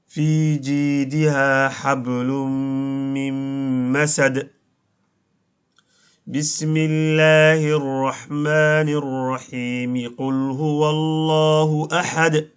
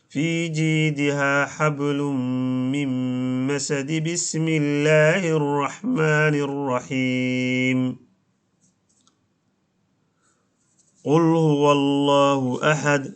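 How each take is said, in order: First: It pauses after masad, then runs on without stopping. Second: It runs on into the basmala, then pauses after it. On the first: The speaker calls it right. "suuratu maaragtay almasadna aakhirkeedii waan ka goynay, bisinkaan ka goynay" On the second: The speaker calls it wrong. "وصل آخر السورة بالبسملة مع الوقف عليها"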